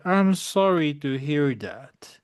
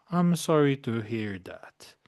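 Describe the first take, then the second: First: "I'm sorry to hear that" read slowly, ending on a rise; teacher modelling the line slowly for the class; slow model reading. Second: Said in the usual way. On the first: Shown as a demonstration. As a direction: read it out slowly and clearly for learners to copy.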